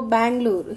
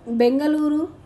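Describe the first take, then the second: First: Bangalore said in three syllables: Ban-ga-lore; old name Bangalore. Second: Bengaluru said in full, four syllables: Ben-ga-lu-ru; new name Bengaluru. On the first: Teacher giving the old city name to the class, pronouncing Bangalore. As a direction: give the old form Bangalore, ending in -lore. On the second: Teacher reading the new city name to the class, pronouncing Bengaluru in full. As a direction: say Bengaluru, the city's new official name, ending in -luru. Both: Shown as a demonstration. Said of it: "so the pronunciation has come like that".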